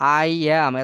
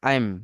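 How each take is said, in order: First: Two separate full words are said. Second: The words merge into one short syllable. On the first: "এত বলতে আমার সময় লাগে" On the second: "এই জন্য কি বলবো আইম"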